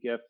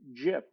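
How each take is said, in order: First: It begins with a hard g sound. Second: It begins with a soft j sound. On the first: The speaker calls it right. "hard G GIF" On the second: The speaker calls it wrong. "pronounce it GIF with a soft G"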